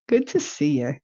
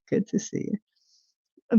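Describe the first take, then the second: First: Said in the usual way. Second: Slow whispered repeat; a slow, breathy whispered greeting. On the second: Shown as a demonstration. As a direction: whisper it back slowly.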